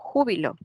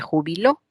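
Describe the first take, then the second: First: The stress is on the first syllable. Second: The stress is on the third syllable. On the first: It names a feeling of great joy. "En esta palabra hay una intensidad, hay un acento" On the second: Someone else already retired. "Aparece el acento en tres posiciones"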